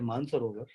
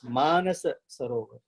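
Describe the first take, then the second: First: The name is shortened, with a middle syllable dropped. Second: The name is said in full, every syllable present. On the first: This is the everyday way people say the name. The speaker calls it wrong. "we say Mansarovar" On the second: This form means the lake came from the mind. The speaker calls it right. "we cut the words out, it is Manasa Sarovar"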